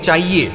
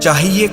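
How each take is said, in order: First: The word is pronounced in a careless form. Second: The word is pronounced in its standard form. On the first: The speaker calls it wrong. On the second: The speaker calls it right.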